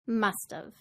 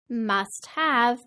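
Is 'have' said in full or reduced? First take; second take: reduced; full. First: Have is reduced and joined to must. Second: Have is said in full.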